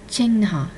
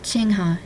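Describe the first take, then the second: First: The word is said with an extra n sound. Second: The word is said without the extra n sound. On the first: The speaker calls it right. "there's an extra in in there that you might miss" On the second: The speaker calls it wrong. "It's not chingha"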